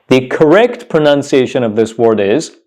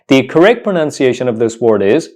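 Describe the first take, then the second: Both takes have the same delivery.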